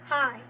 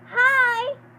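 First: It is said in her own normal voice. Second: It is said in a put-on child's voice.

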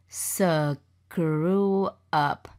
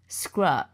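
First: The word sounds like 'screw up'. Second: The word sounds like 'scrub'. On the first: The speaker calls it wrong. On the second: The speaker calls it right.

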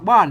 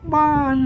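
First: The tone is an ordinary falling tone. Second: The falling tone starts noticeably higher. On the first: "อันภาษาไทยมันออกได้แค่เสียงโท" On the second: "อันไตยวนเชียงใหม่ ... ต้นมันสูงกว่าไปน้อยกึ่งเสียง"

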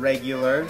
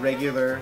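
The two takes are said the same way.

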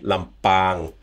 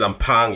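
First: The P has no puff of air. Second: The P has a strong puff of air. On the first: The speaker calls it right. "about the throat again" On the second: The speaker calls it wrong. "You can hear the pop over the P"

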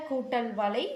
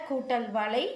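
The two takes are said the same way.

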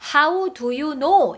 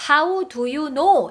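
First: The words how do you are stressed. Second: The words how do you are stressed.

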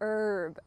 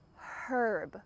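First: The word begins with no h sound. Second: The word begins with an audible h sound. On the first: The speaker calls it right. "this H is completely silent. It's just gone" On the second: The speaker calls it wrong. "we don't say herb, the H"

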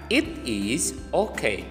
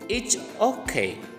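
First: "It is" is said as two full words. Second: "It is" is contracted to "it's".

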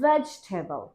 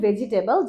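First: It is said with a standard English pronunciation. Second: It is said with a local Bengali-style pronunciation. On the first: The speaker calls it right. "এটা হবে vegetable" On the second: The speaker calls it wrong. "এটাকে আমরা বলি ভেজিটেবল, যেটাও ভুল"

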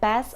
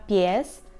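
First: The vowel is a plain e without a y-glide. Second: The vowel is ye, with a y-glide. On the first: The speaker calls it wrong. "польською мовою тільки не пес" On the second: The speaker calls it right. "вимовляємо звук є"

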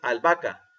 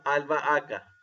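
First: The middle vowels run together in one syllable. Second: The middle vowels fall in separate syllables. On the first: The speaker calls it wrong. "No decimos" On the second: The speaker calls it right.

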